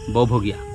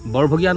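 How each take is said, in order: First: The r sound is dropped from the word. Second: The r sound is pronounced in the word. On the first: This is how it is said in local speech. "আমাৰ শব্দবোৰত ৰ উচ্চাৰণ নহয় যেতিয়া আমি স্থানীয়ভাৱে কথা পাতোঁ" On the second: This is the formal way of saying it. "নহয়"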